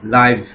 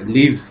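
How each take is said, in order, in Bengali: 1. স্বরধ্বনিটি লম্বা, 'five' এর মতো। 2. স্বরধ্বনিটি ছোট, 'give' এর মতো। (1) "কেউ উচ্চারণ করে লাইভ" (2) "কেউ উচ্চারণ করে লিভ"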